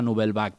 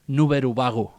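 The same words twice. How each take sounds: First: It is said with a French pronunciation. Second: It is said with a Japanese pronunciation. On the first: "la famosa Nouvelle Vague francesa" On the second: "Que és com els japonesos pronuncien Nouvelle Vague"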